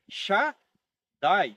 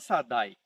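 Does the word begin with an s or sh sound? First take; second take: sh; s. First: The word begins with an sh sound. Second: The word begins with a plain s sound. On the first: The speaker calls it right. "A palavra é Shaddai" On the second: The speaker calls it wrong. "mas não é Sadai"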